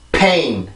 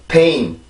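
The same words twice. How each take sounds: First: The opening p is forceful, with strong lip pressure. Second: The opening p is soft, with little lip pressure. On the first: The speaker calls it right. "내가 입술에 힘을 강하게 주면" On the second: The speaker calls it wrong. "그냥 입술에 힘을 주지 않으면"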